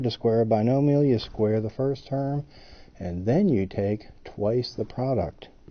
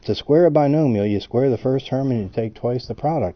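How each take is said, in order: First: It is said a little more slowly. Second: It is said at normal speed.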